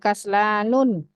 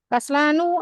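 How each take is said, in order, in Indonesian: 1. Kata ini berakhir dengan bunyi n tambahan. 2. Kata ini berakhir dengan vokal tanpa bunyi n. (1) "tidak boleh kaslanun" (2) "Kaslanu ini tidak boleh berakhiran tanwin"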